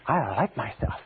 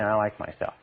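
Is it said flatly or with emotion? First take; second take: with emotion; flatly. First: It is said with strong emotion. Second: It is said flatly, without emotion.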